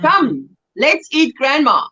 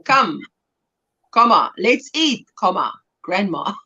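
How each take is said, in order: First: Said in one breath, no pause after come; one smooth unbroken line; fast plain reading. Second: Come, pause, comma, let's eat, pause, comma, grandma, with a clear stop at each comma; saying the word comma aloud; spelled-out punctuation, every comma spoken; pausing at each comma. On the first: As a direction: run it together without a comma pause. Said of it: "punctuation's everything". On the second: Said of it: "it's a huge difference". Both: Shown as a demonstration.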